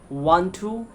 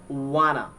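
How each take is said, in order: First: Both words are said fully and separately. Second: The words are reduced and run together.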